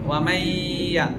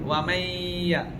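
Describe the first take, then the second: First: The n merges into a nasalized doubled y. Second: The same.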